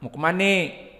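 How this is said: It is said in Betawi dialect.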